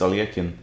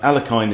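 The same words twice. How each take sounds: First: The name is said the Russian way. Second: The name is said the English way. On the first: "in Russian I think it's" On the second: "is the is the English pronunciation"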